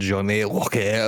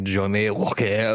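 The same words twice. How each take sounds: First: The name has a French-sounding pronunciation. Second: The same.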